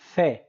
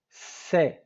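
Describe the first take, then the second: First: The letter is said in a Spanish way. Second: The letter is said in a Latin American way. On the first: "In Spain is pronounced C" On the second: "in Latin America is pronounced C"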